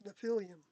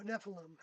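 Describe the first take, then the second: First: Nephilim as nuh-FILL-ee-um; alternative pronunciation. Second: Nephilim as NEFF-uh-lum; alternative pronunciation. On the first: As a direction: say Nephilim with stress on FIL, ending "ee-um". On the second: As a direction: say Nephilim with stress on NEF, three syllables. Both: Shown as a demonstration. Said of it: "however you say that correctly".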